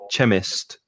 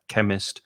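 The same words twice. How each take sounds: First: The word starts with a ch sound. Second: The word starts with a hard k sound. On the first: The speaker calls it wrong. "I hear chemistry very often or chemist" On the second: The speaker calls it right. "It's k, it's a hard k"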